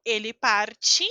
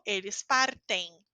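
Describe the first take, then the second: First: Parte said as parchi, the final T like ch; parte ending in chi. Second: Partem said with a clean T, no ch; partem with hard T. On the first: Teacher contrasting parte with partem. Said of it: "Eu digo". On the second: Teacher contrasting partem with parte. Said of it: "eu digo". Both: Shown as a demonstration.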